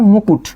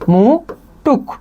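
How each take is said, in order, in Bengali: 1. শব্দটি t ধ্বনি দিয়ে শেষ হয়। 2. শব্দটি k ধ্বনি দিয়ে শেষ হয়। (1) "কয়ের জায়গায় ট চলে আসছে" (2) "ট এর জায়গায় ক চলে আসছে"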